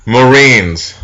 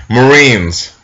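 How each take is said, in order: Both takes have the same delivery.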